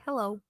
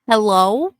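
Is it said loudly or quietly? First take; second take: quietly; loudly. First: It is said quietly. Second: It is said loudly.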